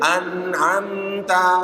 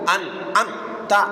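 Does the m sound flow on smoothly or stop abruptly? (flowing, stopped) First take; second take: flowing; stopped. First: The m sound flows on smoothly. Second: The m sound is cut off abruptly. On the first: The speaker calls it right. "Jadi mim ini harus mengalir" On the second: The speaker calls it wrong. "bukan an'amta alaihim ghairil, itu syiddah"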